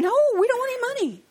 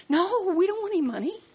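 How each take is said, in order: First: Higher and fast, pushing back harder; emphatic retold refusal with "dont" stressed; insistent refusal. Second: High, bright-pitched polite no; retold cheerful refusal; mock polite refusal. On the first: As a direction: refuse the money firmly and quickly. Refusing again, more insistent. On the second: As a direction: turn the money down sweetly.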